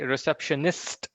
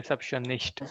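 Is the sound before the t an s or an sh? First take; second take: s; sh. First: The sound before the t is a plain s. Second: The sound before the t is sh. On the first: The speaker calls it right. "Similarly, receptionist" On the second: The speaker calls it wrong. "not recep- uh, receptionist"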